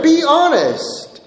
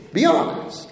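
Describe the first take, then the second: First: Higher, slow and deliberate "Be honest"; slow insistence. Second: Higher and much softer, almost under the breath; soft aside. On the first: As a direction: stretch "Be honest" out, pressing the point. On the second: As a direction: drop the volume and coax. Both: Shown as a demonstration.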